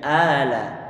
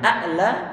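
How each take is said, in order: First: No glottal stop comes before the la sound. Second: A glottal stop comes before the la sound. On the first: The second hamzah has been replaced to ease pronunciation. "menjadi ala" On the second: This is the original form with the second hamzah. "yang a'la"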